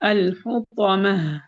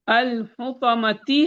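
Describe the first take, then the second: First: It ends with a soft h sound. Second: It ends with a t sound and a vowel. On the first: The reading stops at the word. "Stop करेंगे" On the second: The reading continues past the word. "मिलाएँगे तो ता की कसरा पढ़ेंगे"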